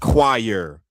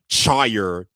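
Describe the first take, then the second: First: The word begins with a 'kw' sound. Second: The word begins with a 'ch' sound. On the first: This is the standard pronunciation. The speaker calls it right. "no, that's choir" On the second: This is how a small child read it from the spelling. The speaker calls it wrong. "I used to pronounce it like that too"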